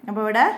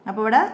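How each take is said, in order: Both takes have the same delivery.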